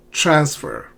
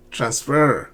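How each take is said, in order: First: "Transfer" stressed on the first syllable. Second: "transfer" stressed on the second syllable. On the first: Teacher modelling for learners, "Transfer" with first-syllable stress. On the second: Teacher showing learners the mistake, "transfer" stressed on its end. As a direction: lean on "fer" at the end of "transfer". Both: Shown as a demonstration. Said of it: "not transfer".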